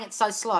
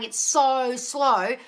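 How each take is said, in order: First: Said in the usual way. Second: Mock whine, "It's so slow" drawn out very slowly; whiny complaint. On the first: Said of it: "But if you keep saying". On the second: Coach mimics a client moaning "It's so slow" with a slow drawn-out whine. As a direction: stretch "It's so slow" into a long slow moan. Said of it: "If you keep saying".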